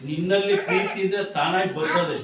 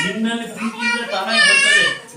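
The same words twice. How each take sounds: First: Said in the usual way. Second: High crying falsetto wail; hammed-up weeping repeat of the line; mock wail. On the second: Shown as a demonstration. Preacher repeats line, wailed high.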